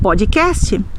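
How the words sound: The word has a Brazilian Portuguese pronunciation. The speaker calls it right. "nós diremos podcast"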